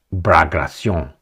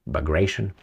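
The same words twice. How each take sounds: First: "Bagration" said the Russian way, rolled r and nasal ending, ba-gra-SYON; "Bagration" with Russian sounds, stress on the last syllable; native Bagration. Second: "Bagration" anglicized as ba-GRAY-shun; "Bagration" in plain English sounds, stress on GRAY. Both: Shown as a demonstration.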